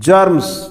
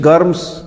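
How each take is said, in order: First: The word starts with a j sound. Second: The word starts with a hard g. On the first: The speaker calls it right. "जर्म्स, न कि गर्म्स" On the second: The speaker calls it wrong. "न कि गर्म्स"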